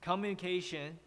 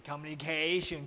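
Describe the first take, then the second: First: "communication" level at first, dropping on CAY; teacher's correct "communication", flat then falling; corrected falling stress. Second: "communication" with CAY stretched and raised; mock the learner's rising "communication"; wrong rising stress. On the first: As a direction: keep "communi" flat and drop on "cation". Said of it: "Actually, it's". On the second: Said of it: "don't make it like". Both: Shown as a demonstration.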